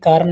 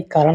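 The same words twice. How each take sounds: First: कारण mispronounced as "kaaran", plain n; dental na. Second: कारण ending in a curled ṇ; retroflex ṇa. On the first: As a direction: end कारण with the tongue forward. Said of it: "कारण नहीं". (कारण को "कारन" बोलें) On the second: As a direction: curl the tongue back to finish कारण. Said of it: "कारण होता है". (कारण के अंत में "ण" बोलें) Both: Shown as a demonstration.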